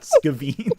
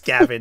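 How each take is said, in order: First: The second syllable has a long 'ee' vowel. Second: The second syllable has a short 'e' vowel. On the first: The speaker calls it wrong. "not Skaveen" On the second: The speaker calls it right. "Of course, it's Skaven"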